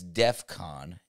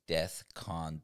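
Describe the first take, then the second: First: The first syllable ends with an 'f' sound. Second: The first syllable ends with a 'th' sound. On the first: The speaker calls it right. "It's DEF CON" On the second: The speaker calls it wrong. "there is no such thing as Death Con"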